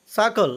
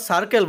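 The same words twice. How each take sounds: First: সার্কেল without its R, "sakol"; silent R. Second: সার্কেল with the R sounded, "sarkel"; old pronunciation with R. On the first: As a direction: drop the middle R in সার্কেল. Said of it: "আরের উচ্চারণ হবে না". (সার্কেল, মাঝের র ছাড়া "সাকল") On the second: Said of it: "এটাকে আমরা সার্কেল বলতাম". (সার্কেল, মাঝের র উচ্চারণ করে) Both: Shown as a demonstration.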